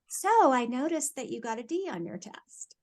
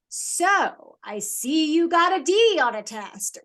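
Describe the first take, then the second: First: It is said in a calm, neutral tone. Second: It is said in an accusing, judgmental tone.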